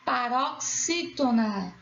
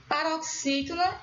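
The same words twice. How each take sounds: First: "paroxítona" slow, in separated chunks; syllable by syllable. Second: Said in the usual way. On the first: Shown as a demonstration. Teacher naming the classification, "paroxítona" slowly broken up. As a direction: sound out "paroxítona" slowly for learners. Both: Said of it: "A sua classificação será".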